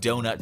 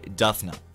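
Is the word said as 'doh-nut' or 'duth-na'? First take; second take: doh-nut; duth-na. First: It is pronounced doh-nut, as spelled. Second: It is pronounced duth-na, with altered sounds. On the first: The speaker calls it right. "instead of saying donut spelled fully" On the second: The speaker calls it wrong. "her teacher would say Duthna"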